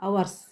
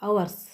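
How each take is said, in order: No difference in how they are said.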